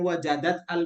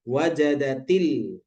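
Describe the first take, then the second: First: The two words are kept apart, with the hamza sounded. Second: The words are joined by an i-vowel, hamza dropped. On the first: The speaker calls it wrong. "bukan wajadat al mukminatu" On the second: The speaker calls it right. "tapi wajadatil"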